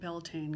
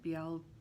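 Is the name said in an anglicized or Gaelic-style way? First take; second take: anglicized; Gaelic-style. First: The name is said in an anglicized way. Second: The name is said in a Gaelic-style way. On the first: The speaker calls it wrong. "I'm going to pronounce it Beltane" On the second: The speaker calls it right. "it's actually pronounced Beltane"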